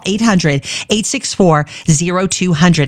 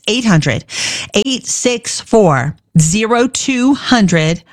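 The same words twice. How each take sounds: First: The number is said fast. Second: The number is said slowly.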